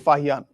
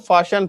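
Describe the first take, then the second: First: The middle consonant is an 'h' sound. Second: The middle consonant is an 'sh' sound. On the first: The speaker calls it wrong. "ना कि फाहियान" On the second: The speaker calls it right. "तो आगे से इसको फाशियान पढ़ना"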